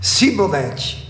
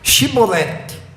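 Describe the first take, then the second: First: The word begins with a plain 's' sound. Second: The word begins with an 'sh' sound. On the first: The speaker is revealed as an Ephraimite. The speaker calls it wrong. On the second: The speaker belongs to the Gileadite side. The speaker calls it right.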